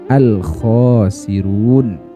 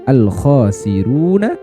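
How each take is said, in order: First: The word ends on a stopped consonant. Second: The word ends with a final vowel sound. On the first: The recitation stops at this word. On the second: The recitation continues without stopping.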